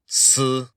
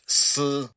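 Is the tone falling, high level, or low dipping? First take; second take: high level; high level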